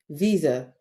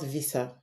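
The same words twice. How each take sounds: First: The s is said as a buzzing z sound. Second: The s is said as a hissing s sound. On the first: The speaker calls it right. "S letter but sounds Z" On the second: The speaker calls it wrong. "and not"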